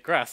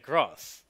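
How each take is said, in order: First: It is said with a northern English vowel. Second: It is said with a southern English vowel. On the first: This is how the other person says it. "Why do you say grass?" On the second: This is how the speaker says it. "I say grass"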